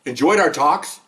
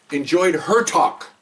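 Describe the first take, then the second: First: Said in the usual way. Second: Slow, pointed weight on "her"; stress on HER. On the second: Shown as a demonstration. Husband correcting the line about the talks, stress on "her". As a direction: correct it with a deliberate, drawn-out "her".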